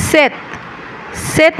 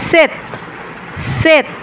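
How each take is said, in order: No difference in how they are said.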